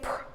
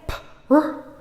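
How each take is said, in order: First: The two sounds are blended into one unit. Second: The two sounds are said separately with a gap. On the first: The speaker calls it right. "say pr" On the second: The speaker calls it wrong. "don't say p, r"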